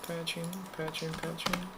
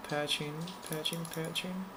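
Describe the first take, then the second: No difference in how they are said.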